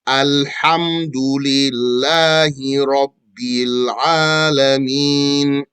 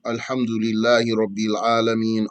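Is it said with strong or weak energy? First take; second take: strong; weak. First: It is said with strong, firm energy. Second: It is said with weak, slack energy.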